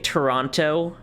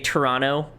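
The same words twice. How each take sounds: First: The second T is pronounced as a hard T. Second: The second T is dropped, not a hard T. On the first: The speaker is a visitor to the city. The speaker calls it wrong. "you know they're a tourist" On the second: The speaker lives in the city. The speaker calls it right. "if you don't do the hard T, you're more likely a resident there"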